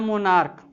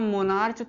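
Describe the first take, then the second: First: The word ends with a k sound. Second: The word ends with a ch sound. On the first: The speaker calls it right. "उसका उच्चारण क होता है" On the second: The speaker calls it wrong. "मोनार्च तो नहीं पढ़ेंगे"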